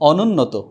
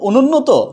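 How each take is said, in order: First: The first vowel is said as an open 'ô'. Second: The first vowel is said as a closed 'o'. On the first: The speaker calls it right. "বিদ্যমান থাকবে অনুন্নত" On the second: The speaker calls it wrong. "এখন আমরা কি বলবো, অনুন্নত না"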